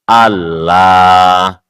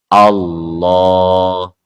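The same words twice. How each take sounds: First: The L is thin and clear, light-sounding. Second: The L is thick and dark, deep-sounding. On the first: This is how Europeans say it. "lamnya jadi tarkik" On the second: This is how Arabs say it. "lamnya jadi tafkhim"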